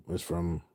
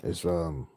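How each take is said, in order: Both takes have the same delivery.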